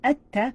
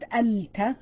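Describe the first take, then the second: First: The L is dropped into a doubled T. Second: A clear L is pronounced before the T. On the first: The speaker calls it right. "but you're saying at-ta" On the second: The speaker calls it wrong. "Not al-ta"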